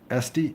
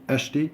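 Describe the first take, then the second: First: The middle consonant is a plain s sound. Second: The middle consonant is a sh sound. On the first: The speaker calls it wrong. "it's wrong" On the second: The speaker calls it right. "that S with the squiggle below, it would be a sh then"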